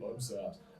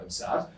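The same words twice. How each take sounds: First: It is said with a sad, expressive voice. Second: It is said in a flat, neutral voice. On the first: The tone of voice carries the emotion. "The way we say it" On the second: Only the words carry the emotion. "Words we say"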